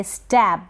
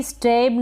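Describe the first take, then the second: First: स्टैब with short open "ae", as in "stab"; correct pronunciation. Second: स्टैब closed to "ay", like "strabe"; wrong pronunciation. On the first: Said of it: "इसको भी". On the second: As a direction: say स्टैब with long e and a stray r. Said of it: "नहीं पढ़ेंगे". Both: Shown as a demonstration.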